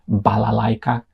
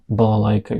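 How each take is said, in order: First: Every a is pronounced as a full a. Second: The unstressed a vowels are reduced toward uh. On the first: The speaker calls it wrong. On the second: The speaker calls it right.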